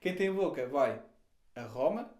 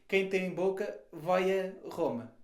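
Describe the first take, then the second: First: 'Vai' and 'a' are heard as separate words. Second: 'Vai' and 'a' run together into one word. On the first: Whoever can speak can travel to Rome. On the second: Whoever has a mouth boos Rome.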